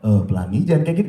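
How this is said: The voice sounds gentle and soft. "Itu terlalu lembut"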